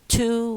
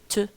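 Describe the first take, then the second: First: The word is said in its full form. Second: The word is said in a reduced form. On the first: "Instead of saying to" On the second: "we have to"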